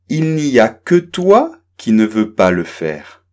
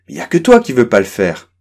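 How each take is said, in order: First: The sentence is spoken slowly and carefully. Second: The sentence is spoken quickly with reduced sounds. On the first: "je vais la prononcer doucement" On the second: "je vais beaucoup plus vite"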